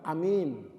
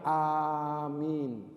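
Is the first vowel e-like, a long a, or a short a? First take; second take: short a; long a. First: The first vowel is a short a sound. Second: The first vowel is a long a sound. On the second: "Yang paling masyhur mengucapkannya"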